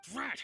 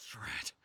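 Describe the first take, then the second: First: Sharp higher exasperated snap; frustrated curse. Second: Breathless resigned whisper; whispered defeat. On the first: Thief cornered by the detective, frustrated curse. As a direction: spit it out in annoyance. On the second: Thief admitting defeat to the detective, whispered curse. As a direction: mutter it under your breath, beaten. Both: Acted.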